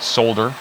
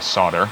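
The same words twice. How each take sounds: First: The L sound is clearly pronounced. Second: The L sound is left out. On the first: The speaker calls it right. "I'm supposed to pronounce that L" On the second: The speaker calls it wrong. "I like to say solder"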